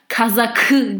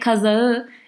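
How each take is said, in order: First: The middle consonant is a hard k sound. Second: The middle consonant is a soft gliding sound. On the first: The speaker calls it wrong. "like that's like a force" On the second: The speaker calls it right. "that's softer"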